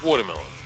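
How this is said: The word is said in his regional accent. "Say it like you say it"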